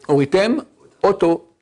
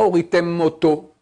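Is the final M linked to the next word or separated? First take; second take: separated; linked. First: The final M is kept apart from the next word. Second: The final M runs into the next word. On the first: The speaker calls it right. "très bien" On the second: The speaker calls it wrong.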